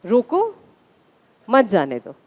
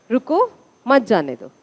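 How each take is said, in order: First: "रोको" with a long o, rising, then a pause; first syllable of "रोको" is o, not u; corrected first word. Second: "रुको" with a short u in the first syllable; first word "रुको", u rather than o; misread first word. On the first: Shown as a demonstration. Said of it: "रोको था ना ये". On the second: Real, not acted. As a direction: say "रुको" with u, pause, then "मत जाने दो". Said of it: "रुको नहीं था".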